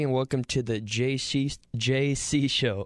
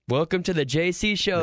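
First: It is said flatly, with little energy. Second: It is said with more energy.

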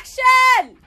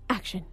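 First: It is said with passion and energy. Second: It is said flatly, without passion.

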